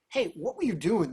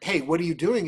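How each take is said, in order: First: It sounds admiring and curious. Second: It sounds accusing and challenging.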